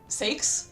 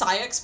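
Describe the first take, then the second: First: The name is said like 'sakes'. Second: The name is said like 'syx'. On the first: The speaker calls it wrong. "I used to call Saix Sakes because I just thought that's how his name was said" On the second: The speaker calls it right. "it's actually pronounced Saix"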